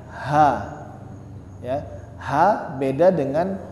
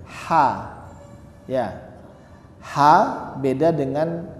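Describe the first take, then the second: The two takes are said the same way.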